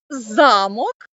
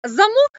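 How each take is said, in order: First: The stress is on the first syllable. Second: The stress is on the second syllable. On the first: It means a castle. "і це означає будинок" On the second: It means a door lock. "А замок це у дверях"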